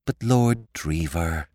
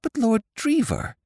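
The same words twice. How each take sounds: First: Put-on calm him like a fretful child; soothing. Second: High, urgent plea; alarmed young woman calling out; stopping him, high and urgent; Molly crying out. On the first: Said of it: "She spoke soothingly". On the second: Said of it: "she cried". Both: A narrator's reading.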